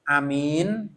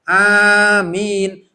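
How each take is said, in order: First: The first vowel is kept short. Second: Both vowels are drawn out long. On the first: Trustworthy. The speaker calls it wrong. "Amin itu maknanya bisa dipercaya" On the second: May God grant it. The speaker calls it right. "Ane panjang, mi-nya panjang"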